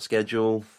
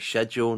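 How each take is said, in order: First: The word is said the American way. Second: The word is said the British way. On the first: "not schedule" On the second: "I say schedule"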